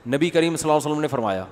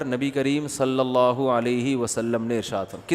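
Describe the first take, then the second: First: Fast, slurred صلی اللہ علیہ وسلم run together; rushed durood. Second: Slow, every syllable of صلی اللہ علیہ وسلم given its weight; respectful durood. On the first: Retold or imitated. Mufti mimicking people who rush the blessing, slurred. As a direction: gabble the blessing like it's a chore. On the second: Shown as a demonstration. Mufti showing the respectful way to say the blessing, slow. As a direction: say it with reverence, unhurried. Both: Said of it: "ارے تمیز سے بول دے یار".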